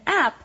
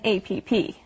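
First: It is said as one short word. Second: It is spelled out letter by letter. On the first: The speaker calls it right. "be sure to call it an app" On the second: The speaker calls it wrong. "instead of an APP"

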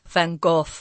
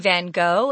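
First: The name is said with a Dutch pronunciation. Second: The name is said with an American pronunciation. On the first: "if you're in his own native country, you would actually say Van Gogh" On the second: "But Americans say Van Gogh"

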